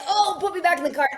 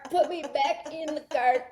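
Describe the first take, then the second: First: High, loud mock wail; pleading injured dog. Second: Slow, high begging dog; drawn-out mock plea. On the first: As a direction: voice a hurt dog begging in a rush. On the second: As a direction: stretch out the pitiful plea. Repeats dog's plea, drawn out.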